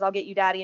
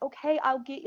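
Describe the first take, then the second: First: It is yelled in an aggressive tone. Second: It is said in a soothing, calm tone.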